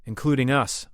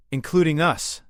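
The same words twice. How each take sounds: First: Loud, firm confirmation; agreeing. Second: Loud, high, emphatic objection; pointing out. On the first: Translator accepting the queen's point about the blast, agreeing. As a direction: agree with it, raised and emphatic. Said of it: "Marcus agreed". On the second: Queen to translator about the deadly blast, pointing out. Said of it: "Zyra pointed out". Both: A narrator's reading.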